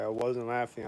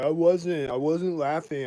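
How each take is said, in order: First: Said in the usual way. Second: Imitating her denial, louder and higher; raised retold denial. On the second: Stalker woman denies laughing, mimicked, louder and higher. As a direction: play back her insistent denial, louder. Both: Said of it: "She's like".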